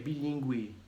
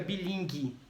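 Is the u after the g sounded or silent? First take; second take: sounded; silent. First: The u after the g is sounded. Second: The u after the g is silent. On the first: The speaker calls it right. "é bilíngue" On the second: The speaker calls it wrong. "não fica bilingue"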